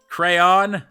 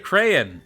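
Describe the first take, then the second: First: The word is said with more syllables. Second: The word is said with fewer syllables. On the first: The speaker calls it wrong. "That's too many syllables" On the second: The speaker calls it right. "It's less syllables"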